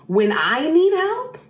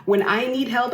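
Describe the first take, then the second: First: "need" drawn out high and slow, rising at the end; slow, high, aching "When I need help"; pleading lament on "need"; high plaintive rise. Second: Said in the usual way. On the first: Retold or imitated. Repeated, first take rising high.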